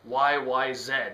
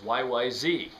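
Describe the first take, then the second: First: The last letter is said as zed. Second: The last letter is said as zee. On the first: This is how it is said in Canada. "We call it Z here in Canada" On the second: This is how it is said in America. "if you're one of my American uh, viewers, you might think of it as"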